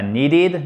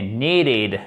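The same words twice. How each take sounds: First: "needed" with a short, lax first vowel, as a mistake; short I sound. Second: "needed" with a long, stressed EE; long I sound. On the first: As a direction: mispronounce "needed" with the EE cut short. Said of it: "Et pas needed". (« needed » avec un I court, comme une erreur) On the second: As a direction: stretch and stress the first syllable of "needed". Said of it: "I long, accent tonique ici". (« needed » avec un I long et accentué) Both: Shown as a demonstration.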